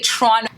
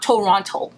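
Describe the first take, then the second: First: It is said the way locals pronounce it. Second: It is said the way outsiders pronounce it. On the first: The speaker calls it right. "We say Toronto" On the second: The speaker calls it wrong. "It's not Toronto"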